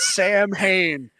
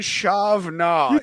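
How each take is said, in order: First: It starts with s, sounding like sam-hain. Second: It starts with sh, sounding like shav-na. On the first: The speaker calls it wrong. "not Sam Hain" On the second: The speaker calls it right. "I think it's Shavna"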